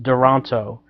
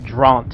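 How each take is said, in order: First: The name is said with three full syllables. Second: The name is squeezed into a single syllable. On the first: This is how the written name looks. The speaker calls it wrong. "it looked like the company name would be pronounced Duranto" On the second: This is how the company says it. The speaker calls it right. "it seems like they pronounce it Dront"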